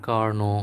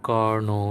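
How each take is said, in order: Both takes have the same delivery.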